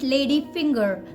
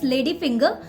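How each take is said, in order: First: The final R is pronounced. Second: The final R is silent. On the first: "if you're working on your American pronunciation, then you will call it lady finger" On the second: "If you're working on your Indian pronunciation, then it's lady finger, because last R is silent here"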